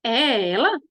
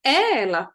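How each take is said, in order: First: "é ela" with a rising question end; questioning intonation. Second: "É ela" stated with a falling end; affirmative intonation. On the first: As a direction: ask "é ela?". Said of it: "Não é mais". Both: Shown as a demonstration.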